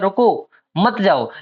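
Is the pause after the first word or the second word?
first word. There is a pause after the first word.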